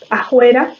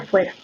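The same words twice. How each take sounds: First: The f is replaced by a breathy h. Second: The f is made with teeth on lip. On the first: "O la aspiración" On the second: "en lugar de"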